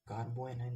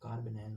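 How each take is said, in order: First: An extra o sound joins carb and anion. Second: Carb runs straight into anion without a vowel. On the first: The speaker calls it wrong. "कार्बो एनायन नहीं होता" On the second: The speaker calls it right. "कार्ब एनायन होता है"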